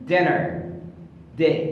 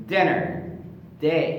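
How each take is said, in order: Both takes have the same delivery.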